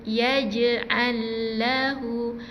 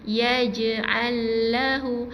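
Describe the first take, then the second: First: The j is released with a light bounce. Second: The j is released with a light bounce.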